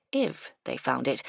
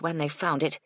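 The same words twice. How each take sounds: First: "if" set apart and leaned on; stress on if. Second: Said in the usual way. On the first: A narrator's reading. Doubting the sign will turn up, stress on "if". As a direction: put the doubt on "if", the rest falling away. Corrects herself from when to if.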